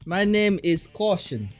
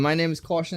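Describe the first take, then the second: First: It is said with a put-on Russian accent. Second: It is said in his normal accent.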